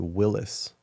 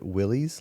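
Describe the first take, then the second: First: The last syllable ends with an 'iss' sound. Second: The last syllable ends with an 'eez' sound. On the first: The speaker calls it right. "like the Y is pronounced as an I" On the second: The speaker calls it wrong. "Some people pronounce it Willys"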